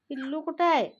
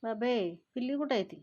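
First: Louder, higher call of पिल्लू कुठं आहे. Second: Said in the usual way. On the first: Real, not acted. Owner calling out to the cat for the kitten, louder. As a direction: call out the question, raised.

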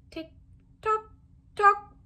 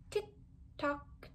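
First: Tick-tock lifted high, rising; tick-tock climbing upward. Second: Soft unvoiced tick-tock falling away; hushed clock tick; whispered tick-tock. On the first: Acted. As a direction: make the clock wind up, rising. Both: Clock ticking, read aloud.

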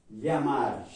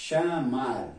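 First: "Llamar" with a y-like ll; Spanish pronunciation. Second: "llamar" with a sh sound at the start; Portuguese pronunciation. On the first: Teacher comparing words for students, Spanish pronunciation. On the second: Teacher giving the Portuguese counterpart, Portuguese pronunciation. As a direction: say "llamar" as Portuguese chamar, sha-MAR. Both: Shown as a demonstration. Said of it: "En portugués".

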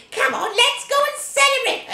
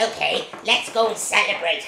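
First: High, eager witch call; gleeful witch. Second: Low witch reply; scheming witch. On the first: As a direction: urge her sister off to party. Witch calls sister to celebrate. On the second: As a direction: agree with a sly grin. Other witch answers, low. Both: Acted.

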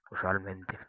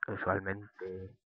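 First: Said in the usual way. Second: Estira muy despacio la palabra "usualmente", sílaba a sílaba; "usualmente" arrastrado y lento, como saboreándola; alargado despacio. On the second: Shown as a demonstration. ("usualmente" pronunciado muy lento y alargado) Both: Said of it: "me acabo de inventar una palabra".

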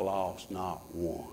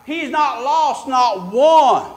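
First: He's not lost not one said low, soft and slow; hushed, intimate reassurance; quiet and slow. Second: He's not lost not one stretched slow and loud; loud drawn-out pulpit emphasis; slow emphatic. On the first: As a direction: sink the words down gently. Same line dropped quiet. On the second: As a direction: hammer out not one word by word. Preacher punches the line. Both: Acted.

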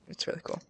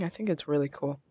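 First: Soft whispered repeat; whispered aside. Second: Said in the usual way. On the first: Real, not acted. Gamer admiring an icy biome, a whispered aside. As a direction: whisper it to yourself in awe.

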